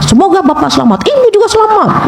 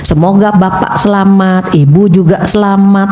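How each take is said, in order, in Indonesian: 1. Diucapkan dengan keras, dengan nada marah. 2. Diucapkan dengan lembut, dengan nada rendah. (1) "Coba kalau kita marah-marah" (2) "nada rendah ... Enak kan Bu?"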